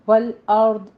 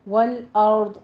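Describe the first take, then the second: Both takes have the same delivery.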